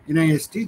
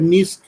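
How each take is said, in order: First: It is spelled out letter by letter. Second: It is said as a single word. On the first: "অথবা এনআইএসটি" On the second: "এটা নিস্ট বলে"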